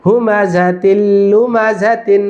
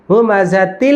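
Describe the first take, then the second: First: "তিল" runs straight into "লুমা", unheld; no nasal hold. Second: "তিল" with the final l dragged out; wrongly held sound. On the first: Teacher models correct recitation, "তিল লুমা" joined without a drawn-out l. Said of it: "কোনো গুন্না টান হবে না". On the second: Teacher shows what is forbidden, l in "তিল" stretched out. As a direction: hold the l of "তিল" far too long. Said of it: "এরকম ধরা যাবে না". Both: Shown as a demonstration.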